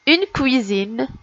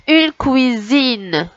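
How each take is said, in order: First: Said in the usual way. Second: "une cuisine" slowly stretched out; word by word. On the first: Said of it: "Je vais vous lire les mots". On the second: Shown as a demonstration. Teacher repeating the third word for children, slowly stretched "cuisine". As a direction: draw out "cuisine" for learners. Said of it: "on va recommencer mot par mot".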